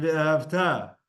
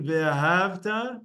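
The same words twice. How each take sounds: First: "ve'ahavta" stressed on the final TA; "ve'ahavta" as ve-a-hav-TA; final-syllable stress. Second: "ve'ahavta" stressed on HAV; penultimate stress. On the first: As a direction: land slowly on the last syllable of "ve'ahavta". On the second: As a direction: lean on "hav" in "ve'ahavta", short final ta. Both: Shown as a demonstration. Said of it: "hear the difference between".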